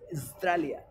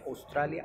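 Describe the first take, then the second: First: The first vowel is dropped, so it starts with S. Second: The word begins with a full O vowel. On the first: The speaker calls it right. "le vas a quitar la AU ... solamente con la S, como es" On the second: The speaker calls it wrong. "Yo decía Australia ... Entonces empezaba con la O"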